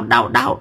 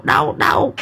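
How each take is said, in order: First: Much higher, repeated yelp of pain; squealing đau đau. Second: Whispered pain. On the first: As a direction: cry out each đau high and sharp. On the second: Hải pain fading to whisper. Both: Acted.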